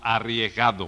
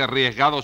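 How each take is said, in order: First: The word is pronounced in a careful, standard way. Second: The word is pronounced in a nonstandard, altered way. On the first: The speaker calls it right. "sino arriesgado" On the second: The speaker calls it wrong. "no se dice arriesgado"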